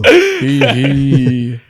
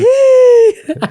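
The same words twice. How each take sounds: First: It is said an octave lower. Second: It is tried in a high pitch.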